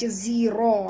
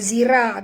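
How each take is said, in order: First: The r sound is heavy and thick. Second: The r sound is light and thin. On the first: The speaker calls it right. "ra situ kena baca tebal" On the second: The speaker calls it wrong. "Jangan baca zira"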